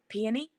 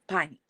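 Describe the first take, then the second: First: The word is said quickly. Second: The word is said as piney. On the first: "just like peony, quick" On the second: "my grandparents used to call them pineys"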